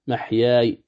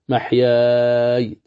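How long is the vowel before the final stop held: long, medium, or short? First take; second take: short; medium. First: The final long vowel is held briefly. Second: The final long vowel is held moderately long. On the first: "محياي قصر" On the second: "محياي توسط"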